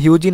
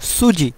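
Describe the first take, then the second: First: The word begins with an h sound. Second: The word begins with an s sound. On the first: The speaker calls it wrong. "হিউজি না বলে" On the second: The speaker calls it right. "সঠিক উচ্চারণ বলবো সুজি"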